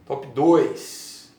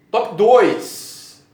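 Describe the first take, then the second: First: Said in the usual way. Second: Loud, high countdown call; loud announcement. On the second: Shown as a demonstration. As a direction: announce it like a big reveal.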